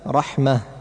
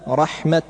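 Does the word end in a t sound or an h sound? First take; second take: h sound; t sound. First: The word ends in an h sound. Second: The word ends in a t sound. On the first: "فيوقف عليها بالهاء" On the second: "يوقف عليها جميعا بالتاء"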